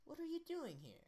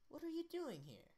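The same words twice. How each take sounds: First: It is said in an American accent. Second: It is said in an American accent.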